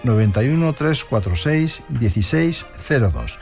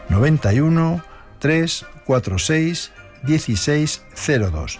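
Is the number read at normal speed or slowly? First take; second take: normal; slowly. First: It is read at a normal speed. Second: It is read more slowly.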